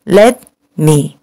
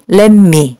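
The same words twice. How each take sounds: First: "let me" with no n sound, clean t; "let me" said plainly, the t kept crisp; correct let me. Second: "let me" said as "len me", t turned into n; the Korean-style "let me" with an n sound; assimilated let me. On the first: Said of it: "그냥 let me 이렇게 발음해 주세요". ("let me"를 ㄴ받침 없이 또렷하게) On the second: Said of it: "let me가 아니라 그냥 let me". ("let me"를 '렌 미'처럼 ㄴ받침으로) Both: Shown as a demonstration.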